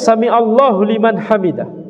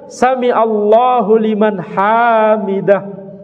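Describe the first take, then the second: First: The 'ha' in hamidah is short. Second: The 'ha' in hamidah is drawn out long. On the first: God hears the one who praises Him. The speaker calls it right. "ini bacanya" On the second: The meaning is changed. The speaker calls it wrong. "Salah kalau dibaca; kalau panjang salah maknanya"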